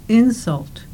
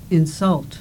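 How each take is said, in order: First: The stress is on the first syllable. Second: The stress is on the second syllable. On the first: "The first words in the pairs have their stress on the first syllable" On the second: "The second words in the pairs have their stress on the second syllable"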